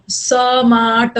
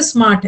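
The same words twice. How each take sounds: First: smart stretched out very slowly, sound by sound; broken into sounds. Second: Said in the usual way. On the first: Shown as a demonstration. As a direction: drag smart apart as s-maa-rt. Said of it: "ऐसा नहीं बोल रहे हो ना". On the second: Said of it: "एक बार में smart बोल रहे हो".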